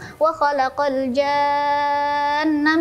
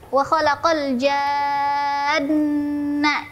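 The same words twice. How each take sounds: First: The nasal n sound is cut short immediately. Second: The nasal n sound is held before moving on. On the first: The speaker calls it wrong. "jangan langsung" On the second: The speaker calls it right. "Tempo dengungnya dua harokat. Jadi ditahan dulu"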